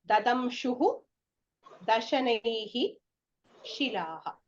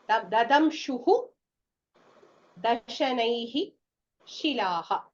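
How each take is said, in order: No difference in how they are said.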